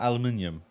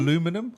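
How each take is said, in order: First: It is said the British way, aluminium. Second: It is said the American way, aluminum. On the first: "They changed it to aluminium" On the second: "the Americans kept it"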